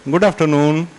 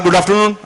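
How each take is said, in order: First: It is said in a soft, warm tone. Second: It is said in a plain, ordinary tone.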